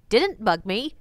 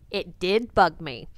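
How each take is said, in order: First: Said in the usual way. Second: "Did" set apart, slow and lower; emphatic contrast. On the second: Shown as a demonstration. Tour guide naming the one that annoyed her, emphatic and slow. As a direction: lean slowly on "It Did Bug Me", dropping the pitch. Game title contrasted with previous.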